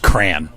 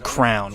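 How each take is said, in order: First: It is one syllable rhyming with "man". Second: It is one syllable rhyming with "down". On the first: The speaker says it this way. The speaker calls it right. "That's cran" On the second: Someone else says it this way. The speaker calls it wrong. "My wife says crown, which is ludicrous"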